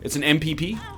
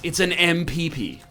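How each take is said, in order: First: It is said with a plain, ordinary rhythm. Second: It is said with an exaggerated, showy rhythm. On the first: The speaker calls it right. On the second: The speaker calls it wrong.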